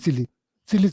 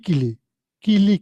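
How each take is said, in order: First: The word begins with an S sound. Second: The word begins with a K sound. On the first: The speaker calls it wrong. "that person is pronouncing Sili Sili" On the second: The speaker calls it right. "that's the correct way to pronounce Kili Kili"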